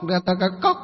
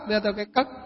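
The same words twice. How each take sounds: First: The word is pronounced clearly and normally. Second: The word is pronounced indistinctly, as with a lisp. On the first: "Chẳng hạn gọi là cái cốc" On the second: "họ không nói được, họ không uốn lưỡi được"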